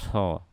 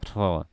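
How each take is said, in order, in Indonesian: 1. Ada aliran nafas yang terdengar menyertai suku kata itu. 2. Ada aliran nafas yang terdengar menyertai suku kata itu.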